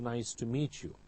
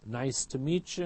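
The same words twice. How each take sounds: First: Each word is pronounced fully and distinctly. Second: The words are reduced and run together.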